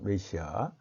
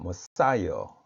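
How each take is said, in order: First: It begins with 'meh', Korean-style, without stress. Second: It begins with 'muh', stressed on 'sigh'. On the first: The speaker calls it wrong. "영어 발음은 메시아가 아니고" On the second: The speaker calls it right. "사의 강세가 있죠"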